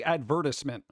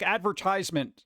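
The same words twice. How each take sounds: First: "advertisement" as ad-VER-tiss-ment; "advertisement" with a short I, tiss. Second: "advertisement" as ad-ver-TIZE-ment; long I in "advertisement", like tize; "advertisement" with TIZE as in size; American advertisement. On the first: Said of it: "advertisement is more U K". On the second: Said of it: "Some people say advertisement". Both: Shown as a demonstration.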